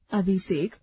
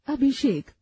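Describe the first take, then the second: First: अभिषेक said as अबिसेक with स instead of ष and no aspiration on भ; wrong pronunciation. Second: Said in the usual way. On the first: Shown as a demonstration. Teacher contrasting wrong and right forms for the class, deliberately wrong. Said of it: "अशुद्ध". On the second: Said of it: "शुद्ध".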